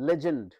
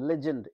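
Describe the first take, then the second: Both takes have the same delivery.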